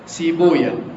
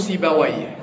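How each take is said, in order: First: The name ends with an open -waya sound. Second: The name ends with a closed -wayh sound. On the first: This is the form used by hadith scholars. "المحدثين يقولوا إيه؟ سيبويا" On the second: This is the form used by grammarians. "النحاة يقولوا سيبويه"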